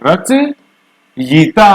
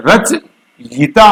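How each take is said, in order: First: रचयिता drawn out extremely slowly with a rising end; exaggerated slow model of रचयिता; correct pronunciation. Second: रचयिता said very slowly with a clear र-च-यि-ता; teacher showing the right way to say रचयिता; correct pronunciation. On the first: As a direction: elongate रचयिता syllable by syllable, then rise. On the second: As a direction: stretch रचयिता out slowly, each syllable separate. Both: Shown as a demonstration. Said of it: "तो ये है सही".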